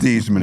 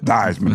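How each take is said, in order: First: The name does not rhyme with Heisman. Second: The name rhymes with Heisman. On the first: This is the family's original pronunciation. "from Thiesman" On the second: This is the changed pronunciation. "rhyme with Heisman"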